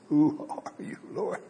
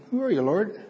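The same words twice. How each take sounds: First: Hushed, stunned "Who are you, Lord?"; awed, trembling question. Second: Risen, questioning Who are you, Lord; rising questioning tone. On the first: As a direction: ask it in awe, not casually. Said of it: "It was probably more like". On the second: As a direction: ask it with a high lift on "are". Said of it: "I don't know what that inflection is". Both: Shown as a demonstration.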